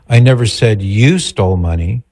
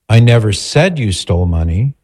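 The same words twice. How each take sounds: First: The stress is on "you". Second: The stress is on "said".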